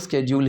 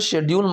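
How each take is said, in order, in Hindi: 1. शब्द 'sk' ध्वनि से शुरू होता है। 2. शब्द 'sh' ध्वनि से शुरू होता है। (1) "अभी स्केड्यूल ही बोलो" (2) "इसको शेड्यूल मत बोलो"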